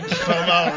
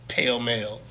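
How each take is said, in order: First: The vowels sound like 'aw'. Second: The vowels sound like 'ay'.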